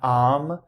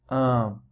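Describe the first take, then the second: First: The vowel is an open 'ah' sound. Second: The vowel is a nasal 'uh' sound. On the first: The speaker calls it wrong. "is not am" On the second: The speaker calls it right. "but it's um"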